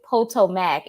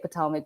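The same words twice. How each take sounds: First: Every syllable of the word is said out fully. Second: The word is said in a quick, reduced way. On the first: This is the way the speaker enjoys saying it. "you have to say it all out" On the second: This is the everyday way of saying it. "I normally say Potomac"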